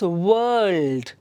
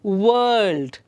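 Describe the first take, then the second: No difference in how they are said.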